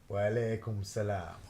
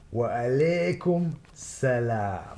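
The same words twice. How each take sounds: First: It sounds sleepy and unenthusiastic. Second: It sounds warm and heartfelt.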